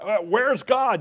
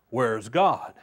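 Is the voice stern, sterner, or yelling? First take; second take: yelling; sterner. First: It is yelled loudly. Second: It is said in an even sterner voice.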